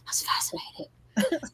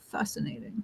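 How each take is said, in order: First: It is said in the speaker's own voice. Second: It is said in a Spock impression.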